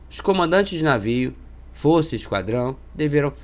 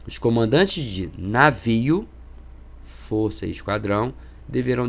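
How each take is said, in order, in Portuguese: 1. A frase é lida em ritmo normal. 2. A frase é lida muito devagar.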